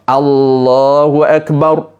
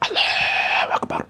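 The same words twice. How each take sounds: First: It is said aloud with a clear, full voice. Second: It is said almost without voice, barely audible. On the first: The prayer words are properly uttered. The speaker calls it right. "syarat sah solat mesti mengeluarkan suara" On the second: The prayer words are not properly uttered. The speaker calls it wrong. "Dahlah solat tidak ada suara"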